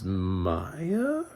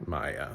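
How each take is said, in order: First: MAYA drawn out slowly, rising like a question; unsure question. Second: MAYA low and soft, falling at the end; settled statement. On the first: Reviewer unsure of the girl's character name, questioning. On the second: Reviewer settling on the character's name, decided. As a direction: say "Maya" quietly as a decided answer, pitch dropping. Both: Real, not acted. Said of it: "I'm gonna go with Maya".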